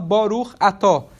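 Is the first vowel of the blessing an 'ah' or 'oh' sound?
oh. The vowels are 'oh', in the Ashkenazi style.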